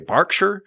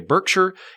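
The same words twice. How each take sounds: First: It is said the English way. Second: It is said the American way.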